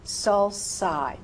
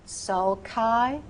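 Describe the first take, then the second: First: "sulci" as "sul-sigh", falling; soft C. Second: "Sulci" as "sul-kai", rising; hard C. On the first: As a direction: say "sulci" with an S sound. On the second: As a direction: say "Sulci" with a K sound. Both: Shown as a demonstration. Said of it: "which is the correct pronunciation".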